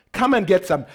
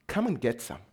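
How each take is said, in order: First: Jesus inviting, fuller voice; eager invitation. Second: Jesus quietly inviting; soft invitation. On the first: Jesus urging his disciples, lifted and eager. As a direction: repeat it with open-armed energy. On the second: Jesus inviting his disciples, soft and low. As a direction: offer it gently, almost under the breath. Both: Retold or imitated. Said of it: "He's going".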